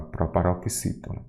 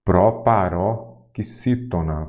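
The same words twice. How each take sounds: First: Said in the usual way. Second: "Proparoxítona" stretched slowly into separate chunks; teacher's slow, segmented "Proparoxítona"; syllable by syllable. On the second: Shown as a demonstration. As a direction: sound out "Proparoxítona" in pieces, pausing between them. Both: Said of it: "o quê?".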